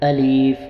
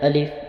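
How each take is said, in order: First: The word is stretched out and drawn long. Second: The word is cut off with a sudden jerk. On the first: "इसको हमने खींच के नहीं पढ़ना ... ये गलत हो जाएगा" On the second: "झटका भी नहीं देना ... ये भी गलत है"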